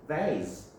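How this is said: It is said with an American accent.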